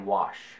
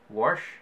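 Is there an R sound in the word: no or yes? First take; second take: no; yes. First: The word has no R sound before the sh. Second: The word has an R sound before the sh. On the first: The speaker calls it right. "if I try to say it correctly, I say wash" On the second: The speaker calls it wrong. "I know there's an extra R in there"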